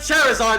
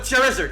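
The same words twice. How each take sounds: First: The ending does not rhyme with lizard. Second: The ending rhymes with lizard. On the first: The speaker calls it wrong. "Everyone says Charizard wrong" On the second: The speaker calls it right. "It's a lizard"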